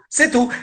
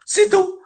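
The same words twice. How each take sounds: First: Said in the usual way. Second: Emphatic high. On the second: Real, not acted.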